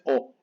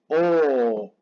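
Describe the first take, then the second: First: The o vowel is short, one beat. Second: The o vowel is long, two beats. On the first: The speaker calls it wrong. "No es O" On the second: The speaker calls it right. "es O. Dos tiempos"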